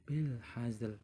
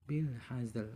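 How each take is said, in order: The two takes are said the same way.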